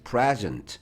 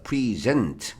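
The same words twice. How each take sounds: First: The stress is on the first syllable. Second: The stress is on the second syllable. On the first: It is the noun meaning a gift. "이걸 present라고 여기에 강하게 읽으면 선물이야" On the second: It is the verb meaning to give or present. "뒤에 좀 강세를 두고"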